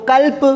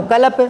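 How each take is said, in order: First: कल्प with the half letter, klp, no vowel after k; half-sound demo. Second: कल्प with every vowel sounded, ka-lap; full-sound demo. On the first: Teacher showing class the half-written letter, short kalp. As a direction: squeeze कल्प into one cluster, kalp. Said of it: "आधा लिख दिया तो". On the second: Teacher showing class the fully written letter, full ka-lap. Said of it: "पूरा लिख दिया तो". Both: Shown as a demonstration.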